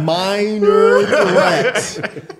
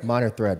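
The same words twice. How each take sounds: First: The phrase is said slowly. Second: The phrase is said quickly. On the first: "I'll say it slowly" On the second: "You said that quick"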